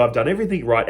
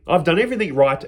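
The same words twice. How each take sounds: First: Sulky, grumbling under his breath; grumpy. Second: "I've done everything right" in a mildly indignant retelling voice, level pitch; a hint of protest, stress on "everything"; lightly indignant son. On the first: Retold or imitated. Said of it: "and he's grumpy". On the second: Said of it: "He goes".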